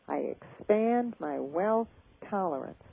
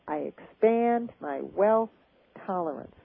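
First: It is said with enthusiasm and energy. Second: The same.

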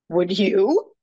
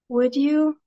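First: It sounds like an indignant, defensive retort. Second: It sounds like a polite, pleading request. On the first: The speaker refuses and is about to justify refusing. "well, I'm not going to, and I'm going to justify the reason why" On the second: The speaker would appreciate it if the listener did it. "That's please, I would appreciate it if you did"

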